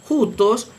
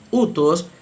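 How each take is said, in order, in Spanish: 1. La palabra empieza con un sonido h aspirado. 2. La palabra empieza directamente con una vocal simple. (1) "según la pronunciación erasmiana, porque está aplicando el valor fonético del espíritu rudo de una J" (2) "pero sin la aspiración inicial se leería utos"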